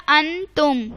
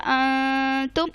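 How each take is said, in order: First: انتم with the nun of انتم said plainly and clearly; nun pronounced clearly. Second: انتم slow, the nun of انتم hidden through the nose; nasalised recitation. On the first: Teacher shows students the wrong reading of انتم. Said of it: "اس کو ایسے نہیں پڑھنا انتم". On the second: Teacher shows students the changed nun in انتم. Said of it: "اب یہاں پہ میری آواز چینج ہو گئی". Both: Shown as a demonstration.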